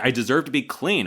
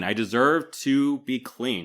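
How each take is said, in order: First: Mock fiery protest, louder and higher; fired up. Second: Slower, heated insistence on "deserve", louder and higher; fired up, drawn out. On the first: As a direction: push it out with heated pride. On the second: Retold or imitated. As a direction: lean hard on "deserve" and stretch the line slowly. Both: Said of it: "she's fired up here".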